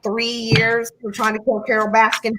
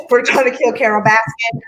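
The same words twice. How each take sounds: First: Southern accent. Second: Said in the usual way. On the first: Shown as a demonstration. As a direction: say it like a Southern local. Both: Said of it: "I said that in a Southern accent".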